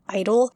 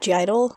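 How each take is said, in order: First: The name starts directly with 'idol', no 'gee'. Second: The name starts with the letter sound 'gee'. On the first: The speaker calls it right. "You're supposed to just say idol" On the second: The speaker calls it wrong. "I know that's the wrong way to pronounce it"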